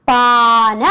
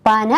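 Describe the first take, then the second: First: പാന with a long first aa, set against പന; long a in paana. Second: Said in the usual way. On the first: Shown as a demonstration. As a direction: stretch the first vowel in പാന. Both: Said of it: "ദീർഘം ഇടുമ്പോ".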